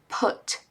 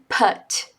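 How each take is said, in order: First: The vowel is not the 'umbrella' vowel. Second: The vowel sounds like the 'umbrella' vowel. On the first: The speaker calls it right. "put é put, put" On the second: The speaker calls it wrong. "usar o U como a de umbrella"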